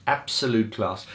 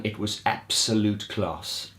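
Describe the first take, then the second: First: Said in the usual way. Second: "absolute" drawn out and weighted, slowly; slow emphatic praise. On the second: Real, not acted. Fan praising Gary's gig, slow and emphatic. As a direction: lean on "absolute" and let it linger.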